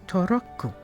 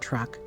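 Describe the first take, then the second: First: Vowels are added, ending on an extra u sound. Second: The word ends on a consonant sound. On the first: "you will say toroku, because you'll add that extra u on the end" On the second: "things we say like truck"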